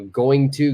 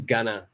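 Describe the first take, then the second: First: The two words are said separately and fully. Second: The two words are joined into one reduced word.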